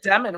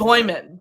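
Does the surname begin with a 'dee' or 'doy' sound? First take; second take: dee; doy. First: The first syllable sounds like 'dee'. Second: The first syllable sounds like 'doy'. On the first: This is how the name looks when read. The speaker calls it wrong. "I said Demon right from the gate" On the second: This is how the player himself wants it said. The speaker calls it right. "Doyman is how he said we should say it"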